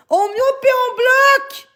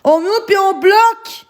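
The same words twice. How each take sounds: First: High, slow shouted command; slow furious high shout; shouting order. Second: Said in the usual way. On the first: Real, not acted. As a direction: yell it at the mods, drawn out. Repeats the order, escalating.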